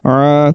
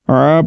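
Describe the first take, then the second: No difference in how they are said.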